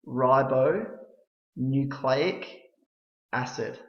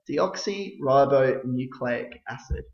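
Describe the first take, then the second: First: It is said slowly, broken into separate parts. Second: It is said smoothly, all run together. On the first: "we'll try and break this down a little bit" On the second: "when you put it all together"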